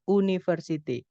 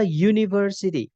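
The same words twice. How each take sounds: First: "university" read as spelt, starting "oo-"; spelling pronunciation. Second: "university" starting with a Y sound, "yoo-"; English pronunciation. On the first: Teacher showing students the written form, "university" begun with "oo". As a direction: say "university" with a plain U vowel, no Y glide. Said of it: "Padahal itu tulisannya". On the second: Teacher modelling the article rule for students, "university" begun with "yoo". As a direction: open "university" on a clear "you" glide. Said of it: "Tapi pakainya a". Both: Shown as a demonstration.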